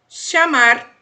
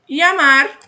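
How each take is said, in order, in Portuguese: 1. O ll é falado como um som de 'sh'. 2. O ll é falado como um som de 'y'. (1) "de X nas sílabas" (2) "som de I"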